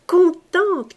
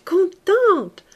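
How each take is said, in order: First: Drawn-out joy. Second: Contente even higher and louder; higher, joyful repeat. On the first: Repeated contente, drawn out. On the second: Young woman repeating her joy, higher. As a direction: lift the second contente higher. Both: A narrator's reading.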